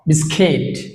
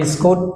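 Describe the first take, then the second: First: The last syllable sounds like 'kit'. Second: The last syllable sounds like 'koot'. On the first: The speaker calls it right. "Real pronunciation বিস্কিট" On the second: The speaker calls it wrong. "আমরা বিস্কুট যেটা বলি"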